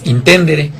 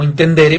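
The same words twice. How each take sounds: First: It is pronounced the Latin way. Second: It is pronounced the Spanish way. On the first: "nos dijo que la pronunciación era eh, Intendere" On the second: "lo lanzamos primero como Intendere porque algunas personas nos dijeron que podíamos eh, castellanizarlo"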